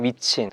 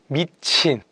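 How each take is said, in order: First: It is said flatly, without any feeling. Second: It is said with lively, emotional feeling. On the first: The reaction is mechanical and insincere. The speaker calls it wrong. "영혼이 없는 게 보이는데도" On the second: The reaction is sincere. The speaker calls it right. "감정을 넣은 톤으로"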